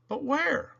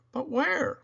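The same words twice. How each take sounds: The two takes are said the same way.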